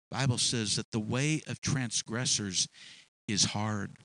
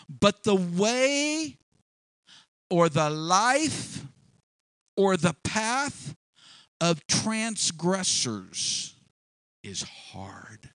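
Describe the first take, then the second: First: Said in the usual way. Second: Slow, drawn-out, each phrase set apart by long pauses; dramatic scripture reading. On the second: Acted. Preacher quoting Proverbs dramatically.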